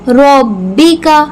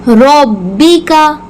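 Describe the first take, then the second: No difference in how they are said.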